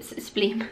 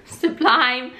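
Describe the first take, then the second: First: "sublime" said as "sub-LEEM"; mispronounced sublime. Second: Said in the usual way. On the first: Real, not acted. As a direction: say "sublime" with an ee in the second syllable. Stumbles reading, then corrects herself.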